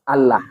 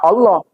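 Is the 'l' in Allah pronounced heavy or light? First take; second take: light; heavy. First: The l sound is light and thin. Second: The l sound is heavy and dark.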